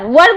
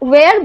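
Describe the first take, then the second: First: The word sounds like 'war'. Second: The word sounds like 'wear'. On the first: The speaker calls it wrong. "वर बोल देंगे तो सब आंख फाड़ के देखेंगे" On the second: The speaker calls it right. "वेयर बोलना पड़ता है"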